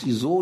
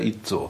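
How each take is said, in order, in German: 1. Der Name wird auf die internationale Art ausgesprochen. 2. Der Name wird auf die deutsche Art ausgesprochen. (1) "auf der ganzen Welt heißt ISO" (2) "nur auf Deutsch heißt es der ITZO"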